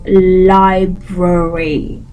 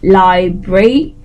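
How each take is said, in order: First: Every R sound in the word is clearly pronounced. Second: One R sound is left out of the word. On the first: The speaker calls it right. "you have to pronounce it as library" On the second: The speaker calls it wrong. "leave this out and just say library"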